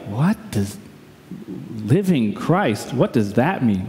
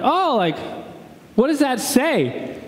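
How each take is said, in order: First: Low, halting, baffled aside; retold confused thought, pitched down; private puzzlement. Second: High, drawn-out polite question; retold over-polite enquiry, pitched up; feigned interest. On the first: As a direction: puzzle it out under your breath. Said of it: "And I was like". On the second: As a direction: ask with put-on friendly curiosity. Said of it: "I'm like".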